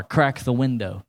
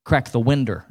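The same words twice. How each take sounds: First: Said in the usual way. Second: "winder" with an -er ending; country pronunciation. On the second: Shown as a demonstration. Preacher showing grandmother's word, "winder" said with country -er. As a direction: end "winder" in -der rather than -dow. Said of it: "It was winder".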